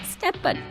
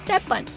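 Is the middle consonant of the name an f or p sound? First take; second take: p; p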